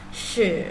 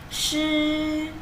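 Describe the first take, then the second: First: The pitch dips down then rises. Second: The pitch stays high and level. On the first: It means to cause. "bacanya turun naik" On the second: It means wet. "nada satu cara bacanya shi"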